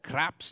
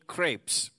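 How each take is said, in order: First: The vowel sounds like the one in 'craps'. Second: The vowel sounds like the one in 'crepe'. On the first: The speaker calls it wrong. "I ruined it" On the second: The speaker calls it right. "I said it right"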